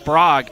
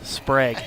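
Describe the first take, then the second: First: "Sprague" said with a broad AH, like "sprahg"; mispronounced name. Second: "Sprague" with an E vowel, like "spreg"; corrected name. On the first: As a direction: say "Sprague" with an open AH vowel. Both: Real, not acted. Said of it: "putting the accent on the wrong syllable".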